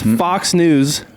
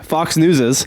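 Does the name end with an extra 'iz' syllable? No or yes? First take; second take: no; yes. First: No extra syllable is added after 'News'. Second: An extra 'iz' syllable is added after 'News'. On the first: The speaker calls it right. "It's just Fox News" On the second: The speaker calls it wrong. "that's not how you say it"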